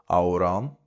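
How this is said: It is said in a Connacht Irish form. "in Connacht"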